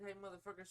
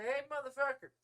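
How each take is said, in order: First: Said in the usual way. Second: High, loud attention-grabber; acted shout to make someone listen; loud call-out. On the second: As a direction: cut across a ranting caller.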